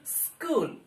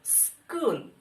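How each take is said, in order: No difference in how they are said.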